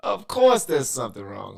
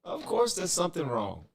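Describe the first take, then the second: First: Much louder, ranting outburst; exasperated shout. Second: High, loud frustrated outburst; exasperated. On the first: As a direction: yell it out in frustration. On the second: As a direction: throw up your hands in exasperation. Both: Real, not acted. Stream audio breaking, exasperated.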